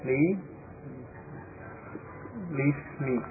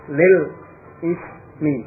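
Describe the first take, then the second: First: The l links straight into 'ismi' without a stop. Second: A glottal stop separates 'lil' from 'ismi'. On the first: The speaker calls it right. "Jadi diucapkan li lismi" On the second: The speaker calls it wrong. "bukan lil ismi"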